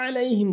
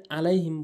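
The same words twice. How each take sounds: First: আলাইহিম begun with a mid-throat ain; correct ain. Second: আলাইহিম with a plain glottal onset; hamza for ain. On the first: Teacher showing how it must be said, throaty আলাইহিম. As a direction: squeeze the first sound of আলাইহিম in the throat. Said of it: "আলাইহিম বলতে হবে". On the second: Teacher showing the mistake, plain আলাইহিম. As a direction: say আলাইহিম lightly, no throaty ain. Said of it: "এখানে আলাইহিম বলে". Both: Shown as a demonstration.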